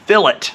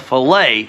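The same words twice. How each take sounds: First: The word ends with an 'it' sound. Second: The word ends with an 'ay' sound. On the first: It names a rounded bead filling a corner. "that is going to be called a fillet" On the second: It names a boneless cut of fish. "if you're going to clean a fish, that's a fillet"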